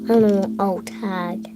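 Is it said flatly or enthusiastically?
flatly. It is said flatly, without enthusiasm.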